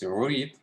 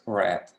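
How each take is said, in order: First: It is pronounced as the present-tense form. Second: It is pronounced as the past-tense form. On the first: The action happens now. "read in the present is just pronounced as read" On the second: The action already happened. "and in the past, it's read"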